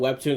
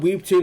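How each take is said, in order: First: The first syllable has a short 'e' vowel. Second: The first syllable has a long 'ee' vowel. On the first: The speaker prefers saying it this way. The speaker calls it right. "I call it Webtoons" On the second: Other people say it this way. The speaker calls it wrong. "people call it Weebtoons"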